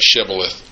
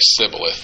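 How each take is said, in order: First: The word begins with an sh sound. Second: The word begins with an s sound. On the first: The speaker is a friend. The speaker calls it right. "people could say shibboleth" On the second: The speaker is a foe. The speaker calls it wrong. "They couldn't make the SH come out right"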